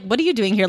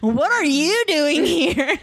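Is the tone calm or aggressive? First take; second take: calm; aggressive. First: It is said in a calm, casual tone. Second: It is said in an angry, aggressive tone.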